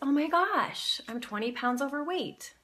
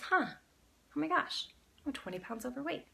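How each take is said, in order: First: It is said in a surprised tone. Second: It is said in a curious tone.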